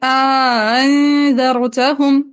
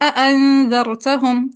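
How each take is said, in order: First: The second hamza is softened, with an alif inserted. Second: Both hamzas are fully pronounced, with no alif inserted. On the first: "तहसील में इदखाल की pronunciation" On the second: "तहक़ीक़ बिला इदखाल"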